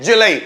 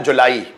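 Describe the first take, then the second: First: जुलाई said "juh-LAI", two syllables; English pronunciation. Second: जुलाई said "ju-laa-ee"; Hindi pronunciation. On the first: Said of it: "English में बोलते हैं जुलाई". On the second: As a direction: say जुलाई the Hindi way, long "aa" then separate "ee". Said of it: "Hindi में बोला जाता है जुलाई". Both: Shown as a demonstration.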